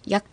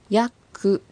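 First: The final k is swallowed, not released. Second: The final k is fully released. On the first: The speaker calls it right. "飲み込むように発音してくださいね" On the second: The speaker calls it wrong. "ヤクではなく"

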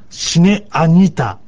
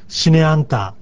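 First: It is said slowly, with an extra vowel. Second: It is said at normal speed, sounds run together. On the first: "もしゆっくりと発音するんであれば" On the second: "普通の速さで、まあ、言うときには、シネアンタ"

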